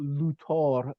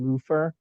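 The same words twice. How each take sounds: First: Luthor said with a hard T, "Loo-tor". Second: Said in the usual way. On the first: Shown as a demonstration. Explaining the Germanized name, Luthor without the H. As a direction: say Luthor as if it had no H. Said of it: "no H". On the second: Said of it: "rather than Luther".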